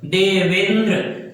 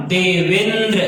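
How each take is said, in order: First: देवेंद्र said slowly, holding the ए sound; slow demo word. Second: Said in the usual way. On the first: Shown as a demonstration. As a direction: repeat देवेंद्र slowly to show the ए. (देवेंद्र धीरे, ए को खींचकर) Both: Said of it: "ए का उच्चारण होगा".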